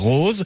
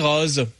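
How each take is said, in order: First: The word is said the northern French way. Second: The word is said the southern French way. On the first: "Au-dessus du Massif central, on dit rose" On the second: "En dessous, on dit rose"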